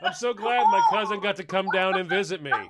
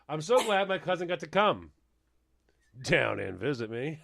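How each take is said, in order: First: It flows without a pause mid-sentence. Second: It has an awkward pause mid-sentence.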